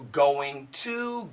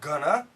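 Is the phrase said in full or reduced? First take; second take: full; reduced. First: Both words are said fully and slowly. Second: It is said fast, reduced to gonna.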